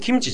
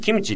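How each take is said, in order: First: It starts low and rises in pitch afterwards. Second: It starts high with stress on the first syllable. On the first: The speaker calls it right. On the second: The speaker calls it wrong.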